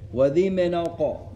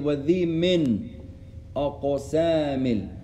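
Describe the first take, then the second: First: The n runs straight into the following word. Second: The n stops before a separate following word. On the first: "You can join the noon to the qaf" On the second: "Or you can stop and say"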